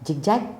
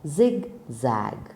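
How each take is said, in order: First: The z sounds are not clear and buzzing. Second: The z sounds are clear and buzzing. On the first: The speaker calls it wrong. "It doesn't sound very good" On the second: The speaker calls it right. "It is pronounced as zigzag"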